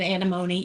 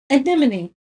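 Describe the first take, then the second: First: Anemone as AN-uh-MOH-nee, stress on MOH; wrong pronunciation. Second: Anemone as uh-NIM-uh-nee, falling at the end; correct pronunciation. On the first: Painter admitting her mistake to viewers, anemone said as AN-uh-MOH-nee. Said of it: "I say words wrong". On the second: Painter correcting herself for viewers, anemone said as uh-NEM-uh-nee. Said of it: "It's an". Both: Shown as a demonstration.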